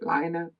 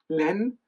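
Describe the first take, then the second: First: The name is said with a non-French pronunciation. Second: The name is said with a French pronunciation. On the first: "but I hear people say Line" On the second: "Len is the French word for yarn. Uh, so I presume it would be Len"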